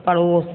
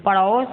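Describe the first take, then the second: First: Said in the usual way. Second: पड़ोस with "au" for o, "parhaus"; mispronounced पड़ोस. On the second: Shown as a demonstration. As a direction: widen the second vowel of पड़ोस to "au", rising. (पड़ोस को गलत "पड़ौस" बोलना) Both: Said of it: "अशुद्ध और शुद्ध".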